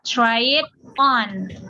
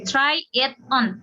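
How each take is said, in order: First: The words try and it run together. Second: Each word is said separately. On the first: "langsung digabung jadi satu" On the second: "kalau kita per kata kan ngomongnya gini pasti"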